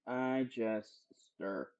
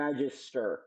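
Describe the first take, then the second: First: Low, soft and drawn apart; hushed repeat. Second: Said in the usual way. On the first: Shown as a demonstration. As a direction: drop low and soft, pausing before the last word. Repeats phrase, hushed and deliberate.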